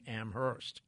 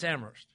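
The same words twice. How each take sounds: First: The H sound is pronounced. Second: The H sound is silent. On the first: The speaker calls it wrong. "by force of habit, I'm always saying Amherst" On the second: The speaker calls it right. "But it's Amherst"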